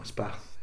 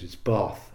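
First: "Bath" with a short flat "a", like "cat"; northern Bath. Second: "Bath" with a long "ah" vowel, said "Barth"; posh Bath. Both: Retold or imitated. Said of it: "it's posh there".

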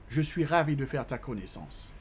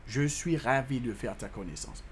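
The two takes are said the same way.

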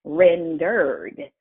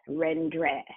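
First: "rendered" with an American R in the ending; American pronunciation. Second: "rendre" in an attempted French accent, ending DRE; attempted French pronunciation. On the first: Teacher showing how American English adds an R, American pronunciation. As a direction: say "rendered" with the R sounded before the final d. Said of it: "in the American English, we add an R to it".

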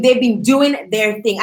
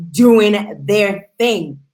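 First: Said in the usual way. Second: "doing their thing" very slow, each word weighted; emphatic repeat. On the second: Real, not acted. Host praises the Sun Divas' success, slow and emphatic. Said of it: "and I mean".

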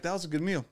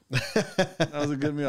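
First: Said in the usual way. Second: Drawn-out content sigh of a line; slow satisfied diner. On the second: Retold or imitated. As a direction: savor it slowly, like a pleased diner. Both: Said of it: "I'm like".

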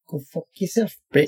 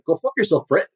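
First: New Zealand accent attempt. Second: Clipped kiwi try at the insult; New Zealand accent, slightly off; New Zealand accent demo; New Zealand accent attempt. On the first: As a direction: keep every word short, kiwi style. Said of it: "keep every single word very short". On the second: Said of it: "I can say certain things like". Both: Shown as a demonstration.

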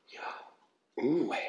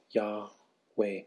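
First: Yahweh drawn in slowly and softly on an inhaled breath; said on an inward breath. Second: Yahweh let out softly on an outgoing breath; said on the exhale. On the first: Teaching the breath name of God, slow inhaled Yahweh. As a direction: breathe in while saying Yahweh, slow and soft. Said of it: "Yah with an inward breath". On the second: Showing how the name follows the exhale, soft breathed Yahweh. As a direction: breathe the word Yahweh out gently. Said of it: "the way as you exhale". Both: Shown as a demonstration.

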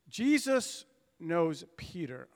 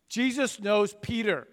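First: Slow, deliberate "Jesus knows Peter"; slow emphasis. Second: "Jesus knows Peter" pushed out firmly, stress on Jesus; emphatic restatement. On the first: Preacher contrasts Jesus and Peter for the congregation, slow and weighty. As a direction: let each word of "Jesus knows Peter" land slowly. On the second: Preacher restates his point to the congregation, firm and emphatic. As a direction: drive home "Jesus knows Peter" with force. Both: Acted.

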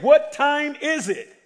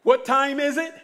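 First: Slower and louder, pressing the crowd; louder repeat. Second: Said in the usual way. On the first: Shown as a demonstration. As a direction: ask again with more force. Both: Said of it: "I said".

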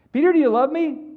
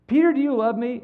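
First: Higher, louder, more insistent; Jesus asking again. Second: Raised, louder questioning voice of Jesus; Jesus asking. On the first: Jesus repeats to Peter, higher and louder. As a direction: push harder this time. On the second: Jesus pleading with Peter, higher and louder. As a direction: press the question up high. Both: Retold or imitated.

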